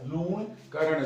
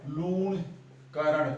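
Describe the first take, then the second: First: Said in the usual way. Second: Lunkaran stretched very slowly, every syllable held; drawn-out name. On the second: Shown as a demonstration. Teacher to exam students, slowly stretching the name Lunkaran. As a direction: spell out Lunkaran slowly so the करण inside stands out. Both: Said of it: "देखो इसके अंदर ही करण आता है".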